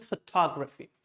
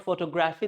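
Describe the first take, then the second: First: "photography" stressed pho-TOG-raphy; correct stress. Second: "photography" as photo-GRAPH-y; wrong pronunciation. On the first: Teacher correcting learners, "photography" stressed pho-TOG-raphy. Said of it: "this is photography". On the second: Teacher showing the mistake, "photography" as photo-GRAPH-y. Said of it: "this is not photography". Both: Shown as a demonstration.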